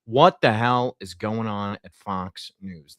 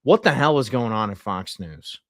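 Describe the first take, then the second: First: Drawn out, word by word; slow right down to hammer the question home; slow emphatic repeat. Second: Said in the usual way. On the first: Real, not acted. Host asking about Fox News once more, slowly and emphatically.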